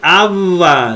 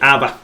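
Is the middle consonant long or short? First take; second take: long; short. First: The middle consonant is held long. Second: The middle consonant is short and single. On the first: The speaker calls it wrong. "Ahí no va a decir aba" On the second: The speaker calls it right. "Nada más como si fuera una B"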